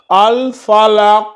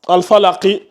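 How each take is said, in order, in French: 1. Le mot se termine brusquement sur la consonne finale. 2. Le mot se termine par une voyelle brève finale. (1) "on supprime la voyelle et on la remplace par un soukoun" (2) "à la base, cette lettre-là, quand vous allez ouvrir le Coran, c'était ça"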